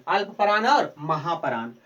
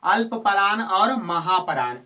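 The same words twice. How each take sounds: First: Said in the usual way. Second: Slow, deliberate, a little louder; teacher to Bihar board students, dictating slowly; slow spelled-out terms. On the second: Shown as a demonstration. Teacher spelling out the two terms slowly. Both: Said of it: "कितने प्रकार के?".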